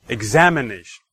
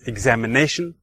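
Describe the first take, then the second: First: The stress falls on the second syllable, 'am'. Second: The stress falls on the fourth syllable, 'na'. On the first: "the second"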